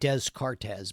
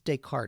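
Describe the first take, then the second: First: The name is read out as it is spelled. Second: The name is said differently from its spelling. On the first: The speaker calls it wrong. "Looks like Descartes" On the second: The speaker calls it right. "it's Descartes is how you say it"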